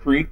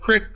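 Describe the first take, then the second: First: It is said the standard way, 'creek'. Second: It is said the Southern way, 'crick'.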